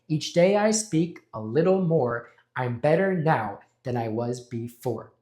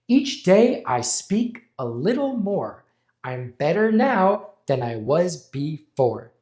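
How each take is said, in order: First: It is said with less confidence. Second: It is said with more confidence.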